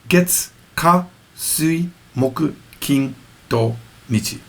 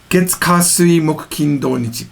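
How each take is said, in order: First: The list is said slowly. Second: The list is said fast.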